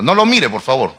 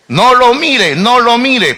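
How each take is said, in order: First: Said in the usual way. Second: Higher and louder, pressing the point; raised mock warning to the congregation; emphatic repeat. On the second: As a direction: insist it playfully, louder.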